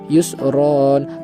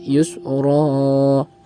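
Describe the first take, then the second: First: The word ends with a short vowel plus n. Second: The word ends with a lengthened vowel, no n. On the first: This is the normal reading when not stopping. "Harusnya ketika normal itu yusron" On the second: This is the reading when stopping at the verse end. "maka cukup dibaca yusra, bukan dibaca tanwin"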